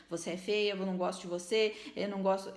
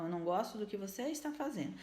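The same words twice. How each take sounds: First: Jab the words at her like a pointed finger; accusing scolding. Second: Softer, even "Eu não gosto do que você está fazendo"; firm but gentle, no blame on her; calm correction. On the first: Mother scolding her child with a finger pointed, harshly. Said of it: "com o dedo apontado e dizendo". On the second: Mother calmly telling her child what she dislikes, softly. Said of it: "Então". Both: Shown as a demonstration.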